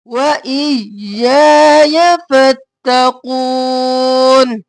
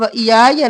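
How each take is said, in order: First: व इयाया drawn out slowly, each या held; correct recitation. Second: व इयाया clipped and fast; wrong reading. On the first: Teacher reciting the corrected verse for students. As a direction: chant व इयाया फत्तकून slowly and clearly. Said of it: "ई और या". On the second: Teacher showing students the wrong quick reading. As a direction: run व इयाया together quickly. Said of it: "व इयाया नहीं करेंगे". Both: Shown as a demonstration.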